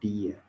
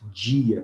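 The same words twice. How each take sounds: First: The d is a plain d sound. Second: The d sounds like the j in jeans. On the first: This is how people in the far south say it. "Os gaúchos também costumam... dizer dia" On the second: This is how most of Brazil says it. "olha como nós falamos dia"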